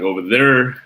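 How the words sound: The R sounds are strongly pronounced.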